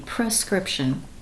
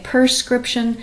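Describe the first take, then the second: First: The word begins with a 'pre' sound. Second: The word begins with a 'per' sound. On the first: The speaker calls it right. "It's a P R E" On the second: The speaker calls it wrong. "we say prescription"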